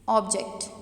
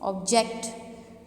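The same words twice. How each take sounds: First: The stress is on the first syllable. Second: The stress is on the second syllable. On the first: It names something you can see and touch. "अगर मैं stress first syllable पे दूँ" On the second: It means to disagree with something. "अगर मैं stress second syllable पे दूँ"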